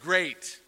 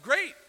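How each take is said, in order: First: It is said with a sarcastic tone. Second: It is said with genuine happiness.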